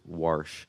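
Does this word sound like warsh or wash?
warsh. It has an added R sound, like warsh. Imitates the mother's South Baltimore way of speaking. The speaker calls it wrong. "Mom says wash"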